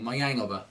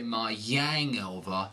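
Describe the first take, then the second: First: The words are linked lightly and smoothly. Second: The words are linked with an exaggerated glide. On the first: The speaker calls it right. "But get right to the next thing" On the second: The speaker calls it wrong. "You don't want to go crazy and say my hangover. That's too much"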